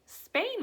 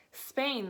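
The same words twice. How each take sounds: First: High, loud disbelieving Spain?; girl horrified by the destination; appalled cry. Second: Said in the usual way. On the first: A narrator's reading. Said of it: "Matilda cried". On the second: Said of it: "the father said".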